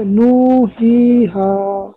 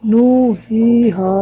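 First: "नू, ही, हा" with each vowel held too long; still over-stretched. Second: "नू, ही, हा" with long vowels reined in slightly; corrected madd length. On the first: Student retrying for the teacher, still over-stretching the vowels. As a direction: drag out "नू, ही, हा" beyond two counts. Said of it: "अभी भी ज्यादा है". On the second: Student correcting the length for the teacher, measured long vowels. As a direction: hold each vowel of "नू, ही, हा" long but measured. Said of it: "ठीक है". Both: Shown as a demonstration.

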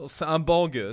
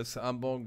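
First: "bang" hit hard and falling; stress on bang. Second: "un" stressed, whole line softer. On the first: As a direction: punch the word "bang". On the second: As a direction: lean on "un", quietly. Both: Shown as a demonstration.

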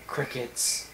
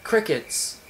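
First: Crickets breathed out, almost silent; hushed, trailing echo; fading deadpan whisper. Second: Said in the usual way. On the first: Pretend. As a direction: let the word die away into nothing. Repeating, fading to nothing.

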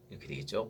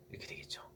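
First: Said in the usual way. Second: Whispered. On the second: Shown as a demonstration.

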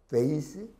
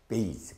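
First: Vase with a true V, rising; labiodental V. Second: 베이스 as base, low and soft; bilabial B. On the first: Teacher repeating the contrast, vase with a V. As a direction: buzz teeth on lip to open vase. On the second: Teacher repeating the contrast, 베이스 with a B. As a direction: pop 베이스 from closed lips, falling. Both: Shown as a demonstration. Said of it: "다른 발음이죠".

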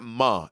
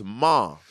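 First: "Ma" said the co-host's way, as the rejected version; wrong vowel in Ma. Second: "Ma" in the speaker's own drawn-out way; own pronunciation of Ma. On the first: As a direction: say "Ma" as the mistaken imitation. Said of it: "It's not Ma". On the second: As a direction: say "Ma" as the corrected version. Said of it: "It's Ma". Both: Shown as a demonstration.

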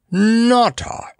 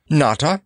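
First: Very high, drawn-out, falling echo; coughed astonishment. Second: Raised pitch with a polite rising end. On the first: Mustafa opening his eyes wide, coughing out astonishment. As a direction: repeat the name in amazed disbelief. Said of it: "coughed Mustafa". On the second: Clown introducing himself to the monarch, politely. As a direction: offer the name courteously. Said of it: "resolved to be polite as long as possible". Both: A narrator's reading.

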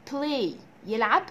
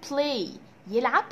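The two takes are said the same way.

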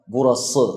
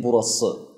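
First: Burası with an over-broad emphatic s like ص; teacher demos the wrong burası to students; wrong pronunciation. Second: Burası with a light plain s, not emphatic; teacher gives the correct burası after the wrong one; correct pronunciation. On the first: نطق خاطئ لكلمة burası. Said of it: "ما بصير ألفظها". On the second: نطق صحيح لكلمة burası. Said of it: "ما هي burası". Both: Shown as a demonstration.

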